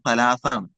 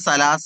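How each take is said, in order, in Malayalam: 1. വാക്ക് മൃദുവായ th ശബ്ദത്തിലാണ് തുടങ്ങുന്നത്. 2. വാക്ക് സാധാരണ s ശബ്ദത്തിലാണ് തുടങ്ങുന്നത്. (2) "ശരിക്കും സലാസ് അല്ല"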